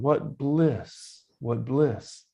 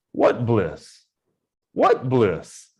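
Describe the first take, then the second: First: What bliss said as a contented, falling exclamation; sincere exclamation. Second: What bliss asked as a louder, scornful question; a questioning, sarcastic what bliss; doubting question. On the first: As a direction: savour it, content and sure. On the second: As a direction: sound like you're mocking the idea of bliss. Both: Shown as a demonstration. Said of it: "it's just intonation of the first word or the second".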